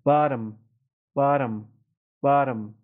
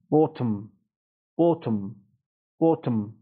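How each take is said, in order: First: "بارم" as American bottom, T tapped like a quick d; American flap T. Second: "Bottom" British style, rounded short o and crisp t; British pronunciation. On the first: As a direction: open ah, then a quick tap in "بارم". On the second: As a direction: say "Bottom" with a true T, no flap. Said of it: "تو لهجهٔ بریتانیایی هم یه مقداری متفاوت". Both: Shown as a demonstration.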